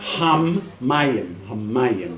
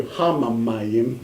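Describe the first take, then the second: First: "hammayim" with the m held long; held mem. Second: "hamamayim" with a doubled ma syllable; wrong extra syllable. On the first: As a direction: lean on the m in "hammayim" and hold it. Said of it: "Just hold the mem for a little bit longer". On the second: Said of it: "now don't do hamamayim". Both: Shown as a demonstration.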